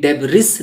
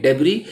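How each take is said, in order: First: DEBRIS with the final S sounded, "DEB-riss"; wrong pronunciation. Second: DEBRIS with no S at the end, "DEB-ree"; silent S. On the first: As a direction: mispronounce DEBRIS with a hissed S ending. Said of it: "ये debris नहीं पढ़ेंगे". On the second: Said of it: "एस silent है". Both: Shown as a demonstration.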